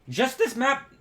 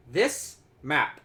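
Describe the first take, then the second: First: Real accidental crack on a high pitch. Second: Said in the usual way. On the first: Real, not acted. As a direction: voice breaking as it jumps high. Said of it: "voice crack". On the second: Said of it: "Give me one second".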